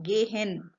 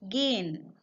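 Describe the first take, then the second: First: The h in the middle is clearly pronounced. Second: The h in the middle is silent. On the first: The speaker calls it wrong. "I have not said gehen" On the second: The speaker calls it right. "H is a little bit silent"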